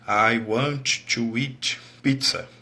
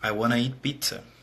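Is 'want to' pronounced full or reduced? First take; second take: full; reduced. First: Want to is said as two full words. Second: Want to is reduced and blended into wanna. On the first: This is the formal, textbook way. "Daí você aprende no cursinho" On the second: This is casual spoken native English. "ele fala assim"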